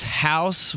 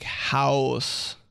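First: Said in the usual way. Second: "house" with a drawn W glide inside. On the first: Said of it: "house with a W". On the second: Retold or imitated. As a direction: stretch "house" into a rounded "howoose". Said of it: "says house with a W".

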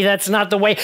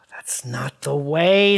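First: Said in the usual way. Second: Low, soft graceful demo, sighed. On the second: Shown as a demonstration. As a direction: show her the elegant way. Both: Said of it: "Like this".

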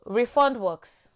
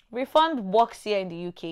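First: Refund drawn out slowly, higher and louder, as a headline; stress on refund. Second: Said in the usual way. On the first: Shown as a demonstration. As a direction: announce refund slowly like a new topic.

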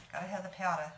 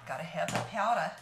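First: Said in the usual way. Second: "Gotta have the powder" said louder, with a fall on "powder"; louder first take. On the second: Real, not acted.

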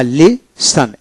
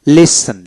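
First: "লিসন" slowly split into li and san, T silent; syllable by syllable. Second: "লিসন" joined up as one word, no T; whole word, silent T. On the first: Teacher breaking down a word for learners, "লিসন" slow in two parts, silent T. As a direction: draw out "লিসন" in two separate beats, no T. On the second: Teacher giving learners the finished word, "লিসন" unbroken with silent T. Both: Shown as a demonstration. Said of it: "টির উচ্চারণ হবে না".

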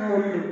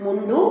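First: mundu said short with a falling, final tune; answer tune. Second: mundu with a rising, open listing tune. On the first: Teacher giving the class the answer mundu with a falling tune. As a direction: settle on mundu as the answer with the pitch dropping. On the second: Teacher reading out the options with mundu rising. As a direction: offer mundu as one option with the pitch rising. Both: Shown as a demonstration. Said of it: "Which is the answer?".

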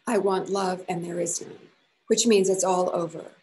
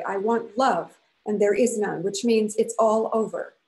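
First: Said in the usual way. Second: Loud, each word hammered down; emphatic. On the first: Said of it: "She repeated the words she had said". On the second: A narrator's reading. Woman telling her lover it's over, loud and final. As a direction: declare it finished with force. Wife ending the quarrel.

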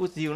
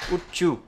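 First: Said in the usual way. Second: "would you" joined as wu-chu; nối âm ch. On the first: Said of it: "không đọc là would you". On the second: Shown as a demonstration. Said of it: "đọc là would you". (đọc "would you" thành wút-chu)

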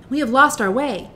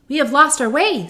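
First: Put-on girl voice, high and louder. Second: Put-on girl voice. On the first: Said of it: "said the child". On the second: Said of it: "said Dorothy".

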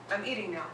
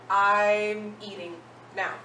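First: Said in the usual way. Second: I'm eating now, said slowly and clearly word by word; slow model phrase. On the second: Shown as a demonstration. Teacher modelling the phrase for students, slow and deliberate. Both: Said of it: "So if I wanna say".

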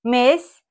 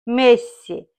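First: "Messi" cut to one sharp syllable, "Mess"; sharp, cut short. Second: Said in the usual way. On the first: Shown as a demonstration. Sasha calls Messi over the meat, "Messi" cut short to a sharp "Mess". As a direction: drop the last vowel of "Messi". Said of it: "it becomes sharper, sharper". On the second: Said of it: "He just cuts off one syllable".

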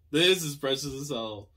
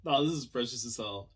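First: Louder, punchier repeat; emphatic gushing repeat; more emphatic. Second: Said in the usual way. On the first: Real, not acted. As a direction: lean into the words. Repeats line, second more emphatic.

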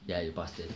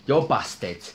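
First: Much softer, muttered "you're busted"; quiet repeat. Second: Punchy teasing "You're busted"; teasing taunt. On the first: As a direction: say it again under your breath. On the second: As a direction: rub it in with a taunt. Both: Acted. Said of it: "I had to say that".

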